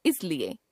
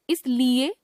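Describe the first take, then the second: First: Said in the usual way. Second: इसलिए with long "lee"; mispronounced middle vowel. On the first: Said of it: "शुद्ध". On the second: Shown as a demonstration. Teacher showing a common error, इसलिए with long middle vowel. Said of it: "अशुद्ध".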